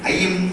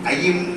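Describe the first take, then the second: No difference in how they are said.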